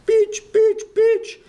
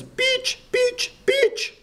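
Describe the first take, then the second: First: Very high and much louder shout; piercing loud mock yell of a name. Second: Very high, yelling the name out the window; piercing high mock yell of a name. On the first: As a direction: belt the name out in the driver's accent. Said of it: "a Pakistani bus driver coming in going". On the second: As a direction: squeal it like a kid hanging out of a bus. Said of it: "leans out and yells".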